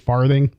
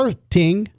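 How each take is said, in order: First: The middle consonant is a th sound. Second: The middle consonant is a plain t sound. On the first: The speaker calls it right. "it's actually farthing" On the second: The speaker calls it wrong. "not farting"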